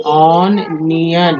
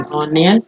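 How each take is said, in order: First: ऑन neon said slowly as two parts; split into parts. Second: Said in the usual way. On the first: Shown as a demonstration. (ऑन नियन धीरे, अलग-अलग हिस्सों में)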